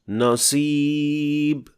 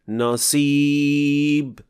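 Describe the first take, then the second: Both takes have the same delivery.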